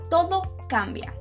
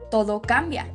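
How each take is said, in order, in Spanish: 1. Se dice con un tono sombrío y pesado. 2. Se dice con un tono esperanzado y luminoso. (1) "la mala noticia. Y esta es" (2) "La buena noticia es"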